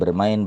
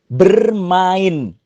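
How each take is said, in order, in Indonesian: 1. Kata ini diucapkan dengan tidak jelas dan kurang tegas. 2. Kata ini diucapkan dengan jelas dan utuh. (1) "nggak nggak nggak jelas gitu" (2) "itu jelas"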